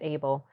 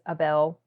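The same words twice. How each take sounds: First: The name is said with an English pronunciation. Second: The name is said with a Spanish pronunciation. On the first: "Maybe he calls it Abel" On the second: "That's the Spanish way to pronounce it"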